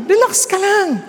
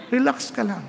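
First: Lively reassurance. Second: Calm reassurance. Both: Shown as a demonstration.

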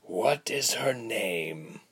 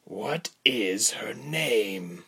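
First: Slow, weary stretched-out question; higher, languid villain's question; listless. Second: Slow, drawn-out stern question; higher, measured villain's demand. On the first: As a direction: ask it as if bored, very slowly. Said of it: "the man asked again, listlessly". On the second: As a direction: press the captive, word by slow word. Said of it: "the man asked sternly". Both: A narrator's reading.

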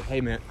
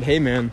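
First: Soft, low attempt at someone else's voice; attempted imitation of a coworker. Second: Said in the usual way. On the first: Retelling what the coworker said, tentative imitation. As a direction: try his voice quietly and tentatively. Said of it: "I'll try to do his voice". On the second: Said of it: "I'll just talk".

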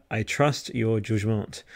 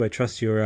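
First: Put-on French accent. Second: Said in the usual way. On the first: Streamer trusting a chatter's pick, in a mock French accent. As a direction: put a slow French lilt on it. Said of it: "my terrible French accent".

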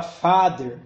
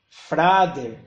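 First: "father" with no r after the f; correct pronunciation. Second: "frader" with an r slipped in after the f; wrong pronunciation. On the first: English teacher gives the word for pai, "father" pronounced correctly. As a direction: say "father", f going straight into an open a. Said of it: "tinha que falar father". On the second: English learner getting father wrong, mispronounced as "frader". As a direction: say "frader", f and r run together. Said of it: "ela tinha medo de errar a pronúncia". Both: Shown as a demonstration.

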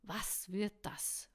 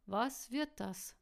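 First: Slow, mildly snarled demand. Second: Slow, higher echo of the question; mocking echo. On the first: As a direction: demand it slowly with a touch of anger. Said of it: "fauchte er". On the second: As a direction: echo it slowly, pitched up, toying. She echoes his angry question. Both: A narrator's reading.

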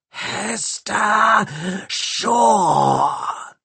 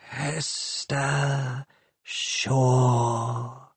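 First: Very high, grating cyborg screech of her name; metallic screech. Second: Soft, hissing machine voice stroking her name; caressing hiss. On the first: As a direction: screech it like a saw cutting metal. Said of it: "screeched a voice, like a saw cutting metal". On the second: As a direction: caress the name like a gas leak. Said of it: "caressing her name with its gas-leak hiss". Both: A narrator's reading.

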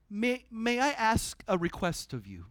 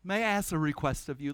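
First: Mildly courteous, like a proper Brit; so polite. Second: Quick, mildly courteous ask; super polite. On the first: Paul politely asking the Roman commander, a touch British. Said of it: "So, so British". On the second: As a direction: keep it light and polite. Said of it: "super polite". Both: Retold or imitated.

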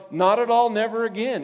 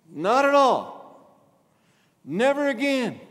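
First: "Not at all, never again" said loud and high, each phrase punched; first pass at the emphatic wording, strong but brisk; emphatic phrasing. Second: "not at all, never again" drawn out very slowly, high and loud, every word weighted; the strongest take, slowed right down; slow emphatic stress. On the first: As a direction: hit "Not at all" then "never again" as two sharp blows. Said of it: "the best we could say would be like". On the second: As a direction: lean hard on "at" and "never" to show the strength. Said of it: "but it's strong and it means".

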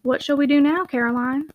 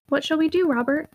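First: Said in the usual way. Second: Lightly playful echo of the question; mildly teasing repeat. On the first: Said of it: "asked Mister Moore". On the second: A narrator's reading. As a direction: toss the question back with a touch of play. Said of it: "repeated she playfully".

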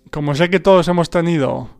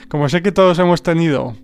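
The two takes are said the same way.

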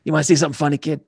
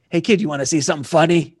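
First: Lightly voiced gangster buddy; repeating the line as Jimmy to show the voice. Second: Lightly voiced gangster buddy; a hint of a tough wiseguy offering a show; retelling, slip into Jimmy's wiseguy voice. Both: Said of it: "that's my Jimmy voice".

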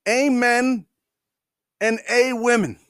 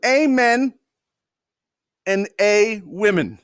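First: Lightly voiced pompous prayer, higher, drawn-out "Amen"; "Amen and a women" with a hint of pulpit solemnity; mock congressman prayer. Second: Slow repeat leaning hard on the "a" in "and a women"; "Amen" higher, then "and a women" slowed with the "a" hit; stress on "a". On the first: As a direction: intone it like a solemn congressman, half mocking. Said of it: "and he goes". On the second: Retold or imitated. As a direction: spell out the absurd "a women" slowly and pointedly. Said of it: "I'll say that again".

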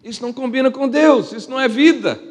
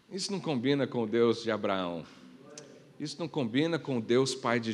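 First: Higher and louder, ringing out; preaching loud. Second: Low and soft, weighty; quiet. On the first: Pastor declaring to the church what fits God, loud and high. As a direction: hit it hard to the back row. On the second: Pastor telling the church what fits God, low and soft. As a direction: say it low, almost to yourself. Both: Acted. Repeated line, quiet then loud.

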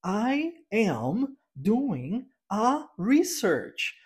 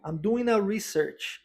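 First: Very slow, word-by-word "I am doing a research"; mock stiff textbook teacher, each word separated; robotic course teacher. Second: "I'm doing a research" slow, "doing" run into "a"; slow model line with the n linking on; linked model sentence. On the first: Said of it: "você escuta o professor ensinando". (professor robotizado de cursinho, palavra por palavra) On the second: Shown as a demonstration. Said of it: "a gente une". (frase modelo devagar, "doing" ligado ao "a")

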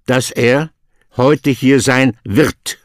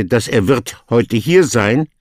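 First: The corrected order, wird held to the end, a little slower; correct word order. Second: Wrong order read out as the mistake, wird placed before heute hier sein; teacher reading dass er wird heute hier sein as the wrong version; wrong word order. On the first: Teacher gives the student the corrected German, wird at the end. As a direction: say dass er heute hier sein wird with wird last, as the correct form. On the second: Teacher shows the student the wrong German word order. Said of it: "you will not say". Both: Shown as a demonstration.

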